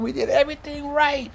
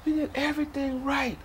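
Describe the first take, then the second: First: High, pained holler. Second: High but softer, sinking despair; quieter anguished repeat. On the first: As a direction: cry it out in protest. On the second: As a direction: let the protest drain away. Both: Retold or imitated. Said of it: "I'm hollering".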